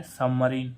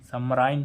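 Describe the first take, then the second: First: सबमरीन ending in a long "ee", "sub-ma-reen"; correct pronunciation. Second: सबमराइन with a long "ai", "sub-ma-rine" like "line"; wrong pronunciation. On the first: Teacher gives the correct form, then the "ee" sound. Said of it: "आई का उच्चारण क्या होना, हो रहा है". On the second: Teacher gives the wrong reading, then the "ai" sound. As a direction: say सबमराइन the way it is not spoken. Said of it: "तो नहीं हो रहा". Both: Shown as a demonstration.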